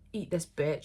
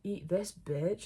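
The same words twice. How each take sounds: First: It is said in a harsh, blunt tone. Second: It is said in a soft, sensual tone.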